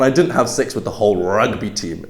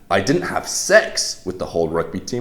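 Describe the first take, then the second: First: The stress falls on the word rugby. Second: The stress falls on the word sex. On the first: It was a different team. "maybe you had sex with all of the lacrosse team" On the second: Something else was done instead. "implies you didn't have sex, but maybe you did something else"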